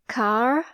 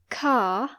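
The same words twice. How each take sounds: First: It is said in an American accent, with R. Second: It is said in a British accent, no R.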